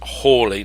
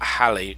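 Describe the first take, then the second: First: The first vowel sounds like 'hall'. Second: The first vowel sounds like 'pal'. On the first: The speaker calls it right. "they all seem to pronounce it as Hawley" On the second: The speaker calls it wrong. "not Halley"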